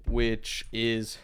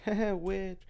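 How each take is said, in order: First: Said in the usual way. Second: Breaks into a laugh on which, higher; real giggle cutting the word which. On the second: Real, not acted. Breaks into laughter mid-phrase.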